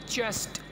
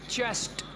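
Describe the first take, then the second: Both takes have the same delivery.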